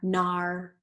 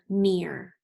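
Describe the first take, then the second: First: The vowel sounds like ar in car. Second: The vowel sounds like ear in hear. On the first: The speaker calls it wrong. "let's try it with R" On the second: The speaker calls it right. "We have one more with ear"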